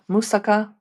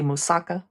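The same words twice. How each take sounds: First: It is said with a non-American pronunciation. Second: It is said with an American pronunciation.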